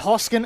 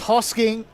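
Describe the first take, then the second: First: The name ends with a plain 'n' sound. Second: The name ends with an 'ng' sound. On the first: The speaker calls it right. "It's hard to say it without the G at the end" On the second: The speaker calls it wrong.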